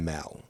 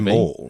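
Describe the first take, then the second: First: The word is said the American way. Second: The word is said the Australian way. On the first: "Americans sometimes say mall" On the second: "I think we say mall"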